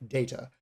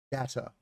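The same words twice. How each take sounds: First: "data" with a long A, DAY-tuh; British pronunciation. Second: "data" with a short A, DAT-uh; American pronunciation. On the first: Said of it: "Generally, British English, say". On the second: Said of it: "People using American English, they'll say". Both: Shown as a demonstration.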